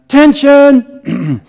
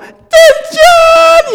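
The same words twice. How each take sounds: First: It is shouted at a normal, lower pitch. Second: It is shouted another octave higher still.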